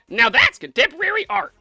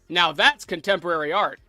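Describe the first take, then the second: First: It is said in a put-on Pibble voice. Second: It is said in his normal voice.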